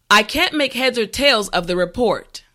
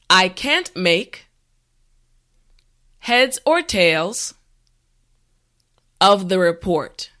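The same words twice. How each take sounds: First: The sentence is said at a natural speed. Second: The sentence is said slowly and carefully. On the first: "the last time at a regular pace" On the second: "this time repeat after me"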